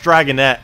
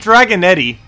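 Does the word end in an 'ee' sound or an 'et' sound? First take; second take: et; ee. First: The word ends with an 'et' sound. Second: The word ends with an 'ee' sound. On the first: The speaker calls it right. "Even though it's Dragonette" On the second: The speaker calls it wrong. "I say Dragonetti"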